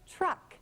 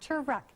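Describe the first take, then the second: First: The t and r blend with no vowel between. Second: A vowel is inserted between the t and r. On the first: The speaker calls it right. "tr, tr, truck" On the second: The speaker calls it wrong. "not truck"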